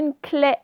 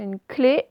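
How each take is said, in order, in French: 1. La voyelle finale est un è ouvert. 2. La voyelle finale est un é fermé. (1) "ce n'est pas une clé" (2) "c'est une clé"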